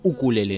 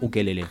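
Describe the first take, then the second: First: The second syllable has an 'oo' vowel. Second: The second syllable has an 'eh' vowel. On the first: The speaker calls it right. "En realidad ya la dicen ukulele" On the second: The speaker calls it wrong. "no ukelele"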